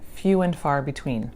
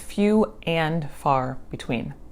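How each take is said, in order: First: The word 'and' is reduced to 'in'. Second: The word 'and' is said fully and clearly. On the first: "the and gets reduced to in. So when you're speaking, it sounds like" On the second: "the idiom is few and far between"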